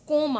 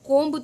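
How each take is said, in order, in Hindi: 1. इस शब्द के अंत में 'b' की आवाज़ नहीं आती। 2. इस शब्द के अंत में 'b' की आवाज़ आती है। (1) "सिर्फ कोम आ रहा है" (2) "हम कोम्ब तो नहीं बोल रहे ना"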